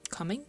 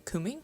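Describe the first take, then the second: First: "Cumming" with a short u as in cut, asked with a rising tune; unsure pronunciation. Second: "Cumming" with an oo vowel as in cook, rising; alternate pronunciation. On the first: Vlogger tries out the actor's name, unsure, rising. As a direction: try "Cumming" as CUM-ming, questioning. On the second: Vlogger tests a second way to say the name, rising. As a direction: test "Cumming" as KOOM-ming, questioning. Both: Shown as a demonstration. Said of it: "I'm gonna go with Cumming".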